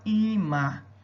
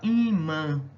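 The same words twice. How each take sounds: First: The final vowel is said without nasal sound. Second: The final vowel is said through the nose. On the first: The speaker calls it wrong. "para você não falar imã" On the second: The speaker calls it right. "mas falar imã. É só para você jogar o A para o nariz"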